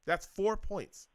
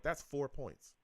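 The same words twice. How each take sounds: First: "That's four points" drawn out slowly, pitched high; exasperated emphasis. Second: "That's four points" said higher but softer, falling; first, softer take. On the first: Host driving home the kicker's missed points, exasperated emphasis. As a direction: hammer "That's four points", stretching it high before the fall. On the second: Host totting up the kicker's missed points, restrained exasperation. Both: Real, not acted.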